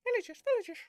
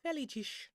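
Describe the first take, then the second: First: Loud, high, playful repeat; excited exclaim. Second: Said in the usual way. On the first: Pretend. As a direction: belt it out with glee. Repeats the word loudly, higher.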